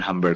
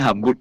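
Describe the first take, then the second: First: The second syllable has an English 'uh' vowel. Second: The second syllable has a clear 'oo' vowel. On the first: The speaker calls it wrong. "bukan U dibaca A kayak bahasa Inggris" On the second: The speaker calls it right. "hurufnya dibaca seperti hurufnya"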